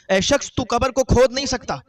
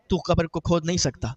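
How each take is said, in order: First: Raised, higher warning from the grave; stern warning. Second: Said in the usual way. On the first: Retold or imitated. Grave voice warns the digging brother, raised and stern. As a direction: repeat the warning louder and higher.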